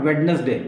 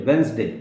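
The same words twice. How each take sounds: First: वेडनेसडे with every letter sounded, wed-nes-day; wrong Wednesday. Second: वेंसडे said wens-day with no d; correct Wednesday. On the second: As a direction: drop the d in वेंसडे. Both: Shown as a demonstration. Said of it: "not वेडनेसडे".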